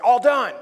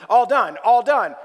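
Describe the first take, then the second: First: Flat robotic device voice. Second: Repeated flat robotic phrase; droning device voice, twice. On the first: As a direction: sound like a speech device. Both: Retold or imitated. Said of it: "say it in a robotic voice".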